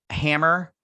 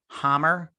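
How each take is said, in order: First: 'Hammer' said with a flat front a, like ham; first take of 'Hammer', rising and unsure; 'Hammer' as HAM-mer; first try at the name. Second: 'Hammer' said with an open ah vowel, like hahm; the fixed 'Hammer' with a broad a; corrected name. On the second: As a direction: settle on 'Hammer' as HAHM-mer. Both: Shown as a demonstration.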